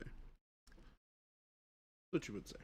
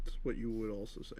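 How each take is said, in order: First: Drawn out, breathy whisper; slow whispered jab. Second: Said in the usual way. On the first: Acted. Slowly whispering a jab back at Chris.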